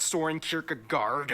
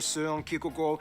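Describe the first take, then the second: First: The name is said with English pronunciation. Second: The name is said with Danish pronunciation. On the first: The speaker calls it wrong. "It's not Soren Kierkegaard" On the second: The speaker calls it right. "That's actually how you pronounce his name"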